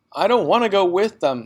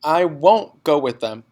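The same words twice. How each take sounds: First: High, loud defiant cry; girl refusing to leave with parents; child's shout. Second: Put-on defiant child. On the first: Acted. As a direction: burst out in protest. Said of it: "Matilda shouted suddenly". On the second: Child insisting.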